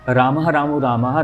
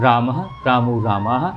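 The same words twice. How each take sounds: First: The words are recited at a faster pace. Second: The words are recited at a slower pace. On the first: "अगर हम इसको और speed से बोलेंगे" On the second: "चौदह सत्रह second हुए।"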